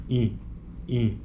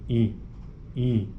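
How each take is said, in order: The two takes are said the same way.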